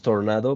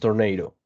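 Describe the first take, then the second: First: The word is pronounced the Spanish way. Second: The word is pronounced the English way. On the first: "I say in Spanish tornado" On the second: "but in English is tornado"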